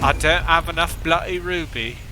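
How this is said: It is said in a put-on British accent.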